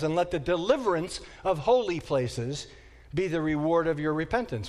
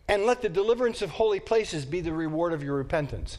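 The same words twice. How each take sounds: First: It is read slowly. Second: It is read at a normal, quicker pace.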